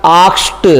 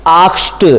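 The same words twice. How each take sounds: First: आस्क्ड with a crisp t at the end. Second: आस्क्ड repeated with a crisp final t. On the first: Teacher to students, modelling the ed ending: crisp t. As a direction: close आस्क्ड on a short, sharp t. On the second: Teacher repeating the answer for students: crisp t ending. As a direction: say आस्क्ड again, ending on a clean t. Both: Shown as a demonstration. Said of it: "क्या बन जाएगा?".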